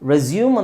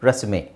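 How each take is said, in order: First: The word ends in a 'yoom' sound. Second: The word ends in an 'ay' sound. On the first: Starting again something that was stopped. "ಇದನ್ನು ರೆಸ್ಯೂಮ್ ಅಂತಲೂ ಹೇಳ್ತಾರೆ" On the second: A document listing one's personal details. "ಏಕಾರ ಅಲ್ಲಿ sound ಬರುತ್ತೆ ಇಲ್ಲಿ"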